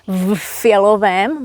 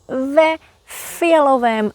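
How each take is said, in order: First: The v joins the next word with no vowel. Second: A short e vowel follows the v. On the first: The speaker calls it wrong. "Not v fialovém" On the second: The speaker calls it right. "but ve fialovém svetru"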